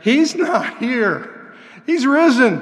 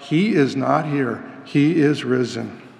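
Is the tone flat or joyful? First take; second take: joyful; flat. First: It is said in a happy, joyful tone. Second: It is said in a flat, solemn tone.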